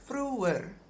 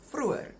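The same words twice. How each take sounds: First: The word is said slowly and carefully. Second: The word is said quickly. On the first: "it becomes vroeër" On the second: "if you pronounce it quickly"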